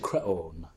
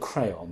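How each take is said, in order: First: The name has a Greek-style pronunciation. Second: The name sounds like the English word crayon. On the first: The name sounds strange and authentic. "they said creon" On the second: The name sounds familiar to the audience. "instead of saying crayon, you know, like the things that children colour with"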